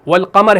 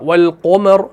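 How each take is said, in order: First: The heavy letter keeps a plain open a vowel. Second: The heavy letter's vowel is rounded toward o.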